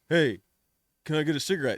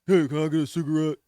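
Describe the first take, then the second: First: It is said in a firm, confident voice. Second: It is said in a sulky, mopey voice.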